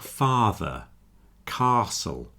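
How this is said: The A vowel is long and drawn out. "in southeast England you get words like father, castle, with that long A sound"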